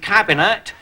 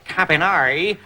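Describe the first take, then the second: First: It is pronounced the plain English way. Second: It is pronounced the French way.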